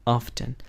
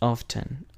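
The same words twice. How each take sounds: The two takes are said the same way.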